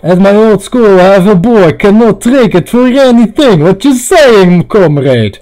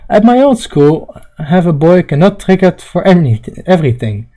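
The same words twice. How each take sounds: First: Put-on Russian accent. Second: Said in the usual way. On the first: Repeats line louder as comrade character.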